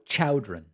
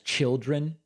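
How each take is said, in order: First: The first syllable sounds like 'chow'. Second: The first syllable sounds like 'chil'. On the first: This imitates how someone else said it. "she pronounced the word" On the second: This is the speaker's own usual pronunciation. "known to me as children"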